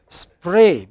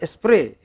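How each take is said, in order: First: It starts directly with the s sound. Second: An extra e vowel comes before the s.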